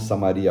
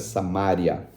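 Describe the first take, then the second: First: The stress falls on the syllable ri. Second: The stress falls on the syllable ma. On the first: The speaker calls it wrong. "eles não falam Samaria" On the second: The speaker calls it right. "a pronúncia certa é Samária"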